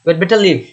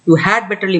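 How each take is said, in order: First: The word 'had' is shortened to a quick 'd'. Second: The word 'had' is said fully and clearly.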